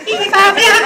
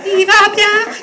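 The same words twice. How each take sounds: No difference in how they are said.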